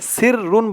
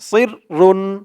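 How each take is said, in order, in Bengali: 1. প্রথম ব্যঞ্জনটি হালকা, সাধারণ s। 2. প্রথম ব্যঞ্জনটি ভারী, গোল করে উচ্চারিত emphatic s। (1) "সির রুন বললে কিন্তু সদের জায়গায় সিনের উচ্চারণ চলে আসবে" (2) "মুখটা হালকা একটু গুল হয়ে যাবে এমন মনে হবে"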